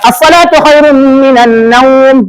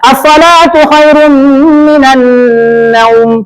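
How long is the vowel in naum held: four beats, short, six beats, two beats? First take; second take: two beats; short. First: The vowel in naum is held two beats. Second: The vowel in naum is kept short. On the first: "Ambil dua" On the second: "Boleh dipendekkan"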